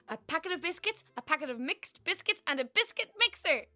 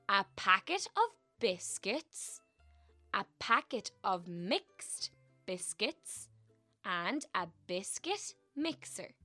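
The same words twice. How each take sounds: First: It is said fast. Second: It is said slowly.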